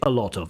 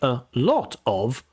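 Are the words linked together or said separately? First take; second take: linked; separate. First: The words run together as one chunk. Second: Each word is said separately, not linked. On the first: The speaker calls it right. "we put words like a lot of together" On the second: The speaker calls it wrong. "We don't say"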